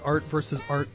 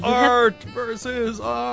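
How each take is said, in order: First: It is said in an ordinary speaking voice. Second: It is said in a dramatic put-on voice. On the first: The speaker calls it wrong. "you can't say it that way" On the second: The speaker calls it right. "that funny voice"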